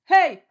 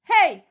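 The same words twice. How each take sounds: First: The call is made at a deeper pitch. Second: The call is made at a higher pitch. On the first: This is the version for boys. "Tu le fais plus grave" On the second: This is the version for girls. "si tu es une fille, fais-le à ma hauteur"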